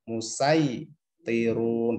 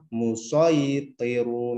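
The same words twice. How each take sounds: First: The s is a light, plain sound. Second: The s is a heavy, emphatic sound. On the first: "kalau sin musaytirun" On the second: "Kalau sod musaytirun"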